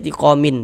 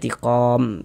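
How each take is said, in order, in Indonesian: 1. Kata ini berakhir dengan bunyi 'in' tambahan. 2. Kata ini berhenti pada bunyi 'm' yang tertutup. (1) "jangan dibaca tiqomin" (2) "dibaca tiqom begitu"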